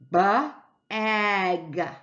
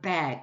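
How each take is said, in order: First: The sounds are stretched out slowly. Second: The sounds are blended quickly together. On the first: "I stretch them out" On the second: "I get the word bag"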